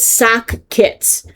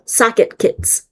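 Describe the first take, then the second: First: It sounds like 'sock' followed by 'kits'. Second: It sounds like 'socket' followed by 'kits'. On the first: The speaker calls it right. "but it's sock kits" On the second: The speaker calls it wrong. "I say socket and then kits"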